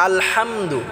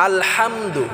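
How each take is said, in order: The two takes are said the same way.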